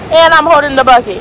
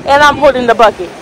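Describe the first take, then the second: No difference in how they are said.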